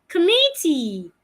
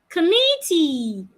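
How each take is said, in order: Both takes have the same delivery.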